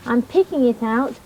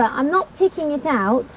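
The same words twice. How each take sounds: First: Picking pressed a little; stress on picking. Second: Not pressed a little; stress on not. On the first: Teaching kids, she stresses picking. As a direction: lift picking, rising to the end. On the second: Teaching kids, she stresses not. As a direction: lean on the word not, then drop. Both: Shown as a demonstration.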